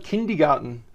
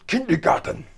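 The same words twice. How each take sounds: First: Said in the usual way. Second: Mock German accent, pitched up; hammed-up angry German on a single word. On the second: Presenter repeating a German word to viewers, angry German. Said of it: "Sound like an angry German".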